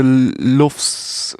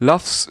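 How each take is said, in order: First: "lufs" with the short oo of "book"; lufs like "loofs". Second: "Lufs" with the open vowel of "loves". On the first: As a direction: say "lufs" with a rounded vowel. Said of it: "How do you say it?". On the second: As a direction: say "Lufs" to rhyme roughly with "loves". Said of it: "should be pronounced like loves". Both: Shown as a demonstration.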